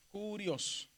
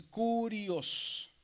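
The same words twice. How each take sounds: First: Said in the usual way. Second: "curios" drawn out very slowly, long first syllable; divided into syllables. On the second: Shown as a demonstration. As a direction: stretch "curios" syllable by syllable, stressing cu. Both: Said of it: "si la dividimos".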